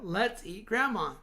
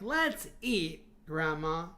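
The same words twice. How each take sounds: First: There is no pause before the last word. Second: There is a pause before the last word. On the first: "Instead of" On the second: "you hear that pause, right?"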